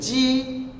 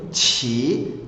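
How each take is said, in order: First: The first consonant is unaspirated, without a puff. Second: The first consonant is aspirated, with a puff. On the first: "ele é lido nesse momento Ji" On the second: "soprado, que tem um som soprado"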